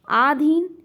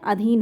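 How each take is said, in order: First: The first vowel is a long aa sound. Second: The first vowel is a short a sound. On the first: The speaker calls it wrong. "आधीन ना होकर" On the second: The speaker calls it right. "अधीन होता है"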